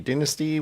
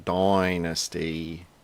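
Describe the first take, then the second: First: The first vowel is a short i sound. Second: The first vowel is a long eye sound. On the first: "with a, a short I" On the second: "as in a long Y"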